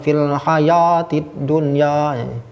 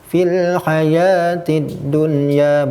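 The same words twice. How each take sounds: First: The vowels sound full and open, like A. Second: The vowels sound light, close to E. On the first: The speaker calls it wrong. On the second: The speaker calls it right.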